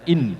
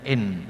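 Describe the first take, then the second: First: The vowel is clear and short, not slanted. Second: The vowel is slanted, with a Javanese tongue. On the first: The speaker calls it right. "dalam membaca Al-Quran harus dibaca in" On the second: The speaker calls it wrong. "lesannya Jawa itu seringnya bacanya in"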